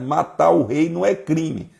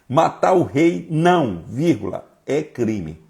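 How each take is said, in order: First: It is said without a pause after não. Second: It is said with a pause after não.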